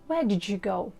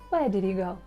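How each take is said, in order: First: 'Did you' is joined with a 'j' sound. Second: 'Did you' is joined with a 'dy' sound.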